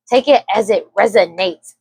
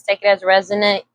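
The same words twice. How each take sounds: First: Careful correction. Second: Said in the usual way. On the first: Real, not acted. Tarot reader fixing a stumbled phrase, careful and deliberate.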